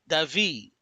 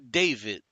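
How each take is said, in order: First: The name is said with a Spanish accent. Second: The name is said with an English accent. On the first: A Spanish speaker is putting his spin on it. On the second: This is how most people say the name. "everybody calls you David"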